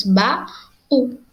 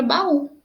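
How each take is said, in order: First: "ba-u" with a clear break between ba and u; split into syllables. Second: Said in the usual way. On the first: Shown as a demonstration. Teacher spelling out the word for the class, syllable by syllable. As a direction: say "ba-u" as two separate syllables, ba then u. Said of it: "O ba sendo a primeira sílaba". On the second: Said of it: "nós temos ba-u".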